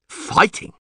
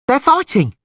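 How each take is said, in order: First: Hushed, voiceless disbelief; surprised. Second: Very high urchin's cry; excited yell. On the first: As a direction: echo it under your breath in surprise. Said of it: "Neville was surprised". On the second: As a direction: yell the news out like a street kid. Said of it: "yelled an urchin". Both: A narrator's reading.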